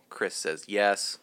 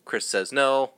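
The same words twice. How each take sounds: First: "yes" drawn out slow and soft; stress on yes. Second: "no" leaned on, deadpan; stress on no. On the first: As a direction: stretch "yes" slowly as the punchline reversal. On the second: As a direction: land on the word "no" with a dry beat. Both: Shown as a demonstration.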